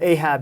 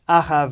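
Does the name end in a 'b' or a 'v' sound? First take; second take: b sound; v sound. First: The name ends with a 'b' sound. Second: The name ends with a 'v' sound. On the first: This is the familiar English pronunciation. "as people know know him in in, uh, in English" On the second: This is the speaker's own, original pronunciation. "as I pronounce it"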